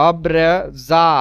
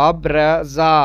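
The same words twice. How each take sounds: The two takes are said the same way.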